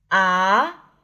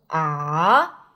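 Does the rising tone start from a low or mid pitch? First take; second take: mid; low. First: The pitch rises from a mid starting point. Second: The pitch rises from a low starting point. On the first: The speaker calls it right. "第二声阳平，它的坐标是3 到5" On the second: The speaker calls it wrong. "起音不能太低，不能啊"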